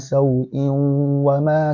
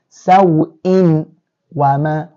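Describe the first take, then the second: First: The nun sound merges into the following w. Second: The nun sound is clearly heard before w. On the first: The speaker calls it right. "Wow belongs to huruf al-idgham" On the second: The speaker calls it wrong. "if it was to be under idhar, how would you have pronounced it? We would have said saw'in wama"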